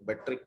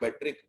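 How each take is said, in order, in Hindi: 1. इस शब्द का अंत एक सादे ee स्वर से होता है। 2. इस शब्द के अंत में एक अतिरिक्त k ध्वनि जुड़ी होती है।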